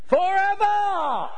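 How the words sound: It is said in an Australian accent. "can you imagine how they said it?"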